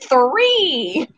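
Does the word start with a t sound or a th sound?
th sound. It starts with a th sound. The speaker calls it right. "it's three"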